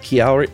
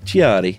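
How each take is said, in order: First: It is said with a plain English accent. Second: It is said with an Italian accent.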